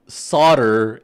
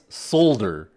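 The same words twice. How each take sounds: First: The word is said the American way. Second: The word is said the non-American way. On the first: The speaker calls it wrong. "it's pronounced solder in in American English" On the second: The speaker calls it right. "everybody else in the world pronounce it solder"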